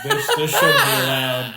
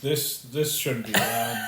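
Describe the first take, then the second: First: Crying with laughter; laughing. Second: Said in the usual way. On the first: Real, not acted. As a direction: say it through laughter. Laughing at joke.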